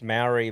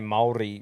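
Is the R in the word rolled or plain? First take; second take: plain; rolled. First: The R in the word is not rolled. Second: The R in the word is rolled.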